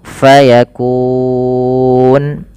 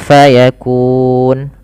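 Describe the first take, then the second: First: The long vowel is held for four counts. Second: The long vowel is held for two counts.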